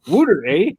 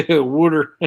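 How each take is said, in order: First: High, loud, laughing Canadian wodder, eh; Canadian mixed accent. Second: High, loud teasing Pennsylvania wudder; mock Pennsylvania twang. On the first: Shown as a demonstration. Showing off her mixed Canadian-Pennsylvania accent. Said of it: "still have it mixed with Canadian A". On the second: Teasing her friend with a mock Pennsylvania twang. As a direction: poke fun at his Pennsylvania water. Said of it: "Pennsylvania twang".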